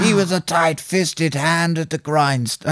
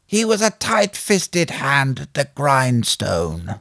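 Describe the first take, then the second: First: Higher, slow mock American accent; second stab at a bad American voice, pitched up; attempted American accent. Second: Slow, laboured mock American accent; badly faked American, drawn right out; attempted American accent. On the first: Host redoing his awful film impression, higher attempted American accent. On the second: Host quoting a film for the guessing game, attempted American accent. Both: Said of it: "supposed to be an American accent".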